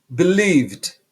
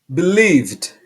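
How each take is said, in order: Both takes have the same delivery.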